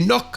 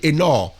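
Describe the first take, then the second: First: The name ends in a hard k sound. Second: The name ends in a breathy kh sound. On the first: The speaker calls it wrong. "on dit Enoch" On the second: The speaker calls it right. "normalement on doit dire Enor"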